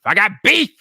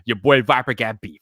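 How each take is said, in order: First: Playful hype; hyped-up declaration. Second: Said in the usual way. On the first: Shown as a demonstration. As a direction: punch it louder and higher. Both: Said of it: "playful teaser intro".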